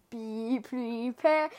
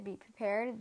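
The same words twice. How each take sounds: First: Slow ominous drawl; dramatic villain. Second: Said in the usual way. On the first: Shown as a demonstration. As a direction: stretch it out like a movie villain. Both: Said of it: "the first thing that came into my mind".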